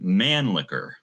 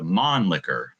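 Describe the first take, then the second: First: The first syllable sounds like English 'man'. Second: The first syllable sounds like German 'Mann'. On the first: It follows the spelling. "because that's just sort of the spelling of it" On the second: It follows German pronunciation. "in German, you wouldn't pronounce it as man. You'd probably pronounce it as Mann"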